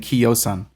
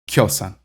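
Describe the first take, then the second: First: The i is a separate vowel before o. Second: The i glides straight into the o. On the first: The speaker calls it wrong. "Notice I'm not saying Kyosan" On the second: The speaker calls it right. "I'm saying Kyosan"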